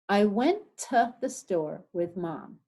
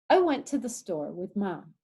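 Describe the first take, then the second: First: The sentence is said at a slower pace. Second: The sentence is said at a faster pace.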